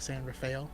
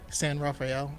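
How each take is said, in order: First: The name is said with an anglicized English pronunciation. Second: The name is said with a Spanish pronunciation.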